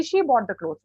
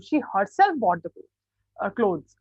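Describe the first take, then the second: First: Said in the usual way. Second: Slow down and push the word herself; stress on herself. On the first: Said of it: "फिर अब मैं दोबारा इस sentence को बोलती हूँ". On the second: Shown as a demonstration. Teacher to class, showing emphasis on herself. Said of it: "इस बात पे ज्यादा जोर डाल के बोल रही हूँ".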